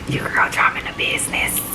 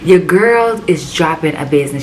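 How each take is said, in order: First: It is said at normal, quieter volume. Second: It is said at a louder volume.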